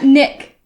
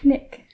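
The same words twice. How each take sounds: First: The name is said harshly, with a hard start. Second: The name is said softly, with a gentle start. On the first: The speaker calls it wrong. "Not Nick" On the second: The speaker calls it right. "It's less less harsh"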